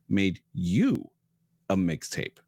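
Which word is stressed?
you. The stress falls on the word you.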